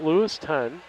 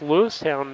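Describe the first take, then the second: First: The name ends with a short 'ton' sound. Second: The name ends with a full 'town' sound. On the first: The speaker calls it wrong. "not Lewiston" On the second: The speaker calls it right. "that's Lewistown"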